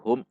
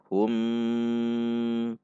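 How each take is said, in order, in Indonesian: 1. Suku katanya hum dipotong dengan sentakan. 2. Suku katanya hum diucapkan panjang. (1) "hum dihentak" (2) "hum panjang"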